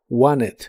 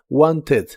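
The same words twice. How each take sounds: First: The T in the middle is dropped entirely. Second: The T in the middle is clearly pronounced. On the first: "en inglés americano es muy común pronunciarlo sin la T" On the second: "Lo puedes pronunciar como se escribe con una E suave casi al final"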